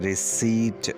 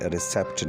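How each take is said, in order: First: The word is said with no P sound. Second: The word is said with a P sound. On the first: The speaker calls it right. "क्योंकि इसमें पी silent है" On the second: The speaker calls it wrong. "रिसेप्ट नहीं"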